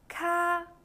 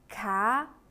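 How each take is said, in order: First: The pitch stays high and level. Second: The pitch rises from middle to high.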